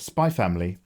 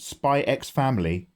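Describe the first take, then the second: First: The letter X is left silent. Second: The letter X is spoken aloud. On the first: The speaker calls it right. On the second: The speaker calls it wrong.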